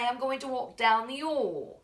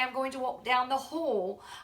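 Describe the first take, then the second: First: The h sound at the start of hall is dropped. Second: The h sound at the start of hall is pronounced. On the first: "Sometimes I'll also drop my H's" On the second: "if I was going to say"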